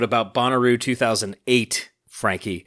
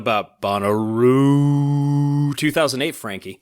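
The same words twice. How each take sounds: First: It is said in the speaker's ordinary voice. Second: It is said in a special put-on voice. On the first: The speaker calls it wrong. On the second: The speaker calls it right.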